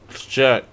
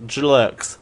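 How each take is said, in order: First: Said in the usual way. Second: "jerks" with an L forced in after the J; artificial L. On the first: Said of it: "hard to put that L". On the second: Shown as a demonstration. Host showing how hard the word is, "jerks" with an added L. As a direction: say "jerks" as "j'lerks". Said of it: "put that L artificially in there".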